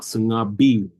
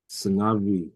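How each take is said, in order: First: The lips close fully for a hard b. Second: The lips stay open for a soft buzzing v. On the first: The speaker calls it wrong. "You're not fully closing your lips like a b b sungabi. It's not sungabi" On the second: The speaker calls it right. "It's just a soft v"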